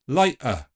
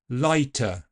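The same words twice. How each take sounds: First: The t is replaced by a catch in the throat. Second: The t is released with a puff of air. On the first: It sounds a little Cockney. "let's replace it with a glottal stop" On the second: It sounds like standard English. "let's start by aspirating it"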